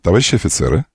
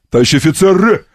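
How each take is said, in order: First: The phrase is said quietly. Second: The phrase is shouted loudly. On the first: Everyone may stand at ease. "А вольно ... Только тихо" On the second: Everyone must stand at attention. "Смирно! ... кричит"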